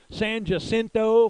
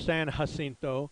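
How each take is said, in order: First: It is said the local Texan way. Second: It is said the standard way.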